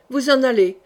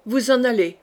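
First: Firm, slightly stronger order; forceful. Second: Said in the usual way. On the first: A narrator's reading. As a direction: press the order home with moderate force. (avec force, ton ferme) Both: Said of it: "répéta Saitano avec force".

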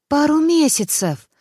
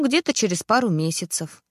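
First: «месяцев» thrown out higher, louder and slower, falling; surprised exclamation. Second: Said in the usual way. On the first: A narrator's reading. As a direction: gasp out the words in disbelief. (удивлённо воскликнуть «Пару месяцев!») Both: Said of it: "удивлённо воскликнул Володя".

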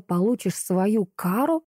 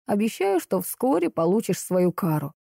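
First: «Получишь свою кару?» repeated with a rise on кару; a startled question ending up on кару; stunned echo. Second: Свою leaned on with weight; promising payback with свою stressed. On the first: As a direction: mull over the threat, realising. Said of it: "Стоп, он сказал". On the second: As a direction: press the word свою as a veiled threat. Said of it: "они делали акцент на словах". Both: A narrator's reading.

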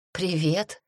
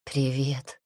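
First: Embarrassed hello, lightly rising at the end; shy greeting. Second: Lower, softer male character voice; man's reply. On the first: Daughter greets him after a time apart, mildly embarrassed. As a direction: say hello with a touch of awkwardness. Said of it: "поздоровалась смущённо". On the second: He answers her greeting as he slowly approaches, low and quiet. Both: A narrator's reading.

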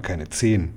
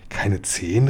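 First: Said in the usual way. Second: "Keine Zehen" echoed as a question, rising at the end; astonished exclamation. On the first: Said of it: "erwiderte sie". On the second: A narrator's reading. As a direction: echo it back in mild astonishment. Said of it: "rief ich aus".

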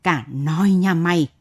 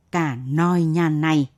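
First: "cả noi nhà mày" with m in "mày"; misheard wording. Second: "cả noi nhà này" with n in "này"; original wording. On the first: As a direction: end on "mày" with an initial m. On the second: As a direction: end on "này" with an initial n. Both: A narrator's reading. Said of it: "nghe thành".

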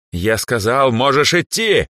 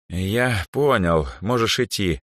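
First: Higher, louder furious yell; angry shout. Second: Put-on slow, lost, higher old mage voice; confused dismissal. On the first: Acted. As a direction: snap it out in anger. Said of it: "гневно выкрикнул Андре". (гневный выкрик) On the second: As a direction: let it out slowly, at a loss. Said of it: "растерянно махнул рукой". (растерянно, медленно)

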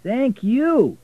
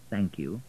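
First: Loud, high cabbie thanks; cab driver. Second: Softly voiced mouthed words; understated, soft thanks. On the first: Driver thanking Richard for five dollars, loud and high. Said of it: "said the driver". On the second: Florentina mouthing thanks to the assistant, softly. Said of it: "Florentina mouthed the words". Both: A narrator's reading.

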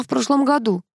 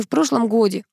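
First: «в прошлом году» with proper ending -у stressed; correct form. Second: «в прошлом годе» with colloquial ending -е; wrong form. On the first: Kuzya correcting the text, stressing «году». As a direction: land on «году» as the right form. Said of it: "а в прошлом году". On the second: Kuzya quoting the text's error, wrong form «годе». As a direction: stress the «годе» as the mistake. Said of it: "процитировал Кузя". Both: Shown as a demonstration.

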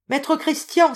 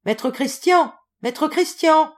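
First: High, loud hail; exclaimed call. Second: High, insistent hailing; louder repeated call. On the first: Visitor hailing his friend on arrival, exclaimed call. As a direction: call out the name to get attention. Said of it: "s'écria-t-il". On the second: Visitor surprised by his friend's stillness, louder repeated call. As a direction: raise the voice to rouse him. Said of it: "répéta plus haut". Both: A narrator's reading.

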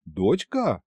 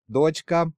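First: Low, slow disbelieving question; stunned question. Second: Said in the usual way. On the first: Acted. Fedya repeating the news to Snezhina, stunned question. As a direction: echo the word in shock. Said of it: "тон произнёс я". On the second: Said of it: "подтвердила Снежина".

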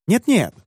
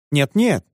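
First: Нет-нет jumps much higher, quick and eager; hasty reply. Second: Said in the usual way. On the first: A narrator's reading. Widow hurriedly reassures Tom, high and eager. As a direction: blurt Нет-нет up high in a rush. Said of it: "поспешно сказала вдова". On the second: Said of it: "отвечала вдова".

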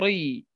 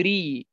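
First: "ري" with a thick, emphatic r; mis-say "ري" heavy, as the mistake to avoid; wrongly heavy rii. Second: "ري" with a thin, light r; light rii. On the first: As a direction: demonstrate a heavy r in "ري". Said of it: "لا نقول ري". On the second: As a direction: say "ري" correctly, r not thickened. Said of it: "نقول ري". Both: Shown as a demonstration.

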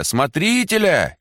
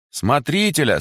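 First: Slow, drawn-out high shout of Смотрителя; drawn-out call. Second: Calling out. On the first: (протяжный крик) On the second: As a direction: summon the warden. (громкий зов) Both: A narrator's reading. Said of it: "кричали женщины".

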